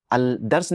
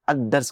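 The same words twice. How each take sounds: First: "अल दर्स" with the L sounded, marked as wrong; wrong pronunciation. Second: "अद दर्स" with the lam merged into a doubled D; correct assimilation. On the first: Teacher shows students the wrong form with lam. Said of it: "नहीं कहेंगे". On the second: Teacher gives students the correct sun-letter form. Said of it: "कहेंगे". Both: Shown as a demonstration.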